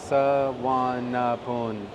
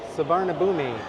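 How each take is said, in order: First: The name ends in a single syllable 'poon'. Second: The name ends in two syllables 'poo-mee'. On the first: The speaker calls it right. "the pronunciation is Sawanapun" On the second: The speaker calls it wrong. "it looks like it should be spelled or pronounced Savarnabhumi"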